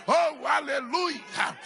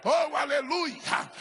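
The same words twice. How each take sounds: The two takes are said the same way.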